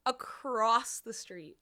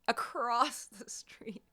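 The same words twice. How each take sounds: First: Said in the usual way. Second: Unvoiced whispered repeat. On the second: Shown as a demonstration. Streamer repeating to chat, whispered. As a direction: whisper it in disbelief. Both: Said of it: "repeats in whisper".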